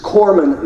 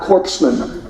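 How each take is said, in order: First: "corpsman" said as core-man, silent p and s; right pronunciation. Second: "corpsman" said wrongly as corpse-man, p and s sounded; mock-wrong "corpsman" as corpse-man; joking mispronunciation. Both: Shown as a demonstration. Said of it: "that is corpsman, not corpsman".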